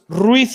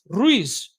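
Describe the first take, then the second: First: The name is said the Castilian Spanish way. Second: The name is said the Latin American Spanish way. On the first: This follows the family's roots in Spain. "like it is in Castilian Spanish" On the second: This is how a Latin American speaker says it.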